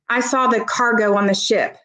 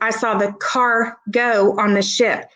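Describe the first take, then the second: First: Car and go run together with no pause. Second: A short pause separates car from go. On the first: The ship carried freight. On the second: A car drove onto the ship.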